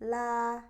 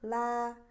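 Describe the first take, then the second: First: The L sound is light but full. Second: The L sound is light but full.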